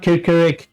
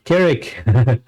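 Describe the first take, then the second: First: Kirkirik with a doubled first syllable, kir-kir-ik; wrong name said. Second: Kirik said as two short syllables, kir-ik; correct name said. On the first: Correcting the boy's name, first the mistaken Kirkirik with a doubled syllable. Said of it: "Not Kirkirik". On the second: Correcting the boy's name, then the right Kirik in two syllables. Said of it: "Not Kirkirik, Kirik". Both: Shown as a demonstration.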